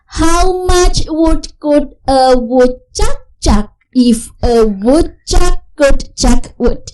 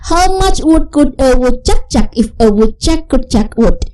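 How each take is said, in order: First: The sentence is said at a slow pace. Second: The sentence is said at a fast pace. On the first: "Kita gabungkan tapi dengan yang sedikit slow dulu" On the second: "jadi faster, lebih cepat lagi"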